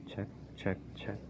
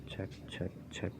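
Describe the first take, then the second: Both takes have the same delivery.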